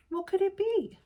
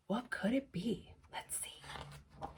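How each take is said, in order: First: Said in the usual way. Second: Whispered, building suspense. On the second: Shown as a demonstration. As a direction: drop to a secretive whisper.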